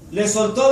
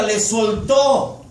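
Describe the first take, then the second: First: Said in the usual way. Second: Soltó drawn out very slowly, heavy fall on soltó; slow emphasis. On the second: Shown as a demonstration. Preacher stresses God's forgiveness, very slow. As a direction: stretch le soltó out, weighing each syllable. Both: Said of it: "dice la Biblia".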